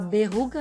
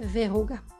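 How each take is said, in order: First: The word begins with a b sound. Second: The word begins with a v sound. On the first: The speaker calls it wrong. "a gente ouça a tal da berruga" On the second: The speaker calls it right. "verruga, com V"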